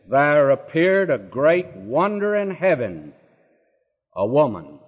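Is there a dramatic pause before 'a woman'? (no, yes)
yes. A marked pause sets off 'a woman' at the end. The woman herself is presented as the great wonder. The speaker calls it wrong.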